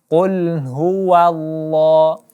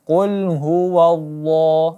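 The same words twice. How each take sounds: First: The wa sound is said light and thin. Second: The wa sound is said heavy and thick. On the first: The speaker calls it right. "Tapi qul huwallah. Wa dibaca tipis" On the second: The speaker calls it wrong. "bukan qul huwallah. Ya, ini salah"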